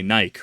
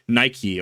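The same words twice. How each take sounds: First: It is pronounced the way British speakers say it. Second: It is pronounced the usual American way.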